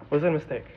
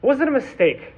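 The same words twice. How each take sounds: First: "Was it a mistake?" repeated lower and softer; hushed, lower repeat of "Was it a mistake?"; softer echo. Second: "Was it a mistake?" asked higher, openly questioning; a raised, probing "Was it a mistake?"; asking. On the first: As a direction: let the question sink in quietly. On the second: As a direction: put the question out to the room. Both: Shown as a demonstration.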